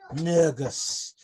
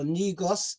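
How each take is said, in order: First: It is said with an Ethiopian pronunciation. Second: It is said with an English pronunciation. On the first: "the Ethiopian pronunciation is actually" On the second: "Negus in English"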